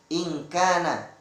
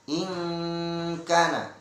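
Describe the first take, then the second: First: The n is pronounced as a clear n. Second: The n is blurred into a nasal sound. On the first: The speaker calls it wrong. "tidak boleh" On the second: The speaker calls it right. "harus dibaca samar ikhfa"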